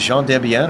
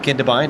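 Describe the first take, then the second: First: The name is split in two, ending in 'biel'. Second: The name runs together, ending in a 'bine' sound. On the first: The speaker calls it right. "it is Jean Dubiel" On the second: The speaker calls it wrong. "I've been pronouncing wrong for about three years now. So it is not Gindebein"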